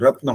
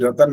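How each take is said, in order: First: The t and n form a tight cluster. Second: A vowel separates the t and the n. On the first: The speaker calls it right. "इसको रत्न होता है ये" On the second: The speaker calls it wrong. "रतन नहीं बोल सकते"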